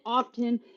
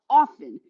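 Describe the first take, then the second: First: The T in the middle is pronounced. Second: The T in the middle is silent. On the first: The speaker calls it wrong. "showing her absolute uneducated ignorance" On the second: The speaker calls it right. "She had dropped the T"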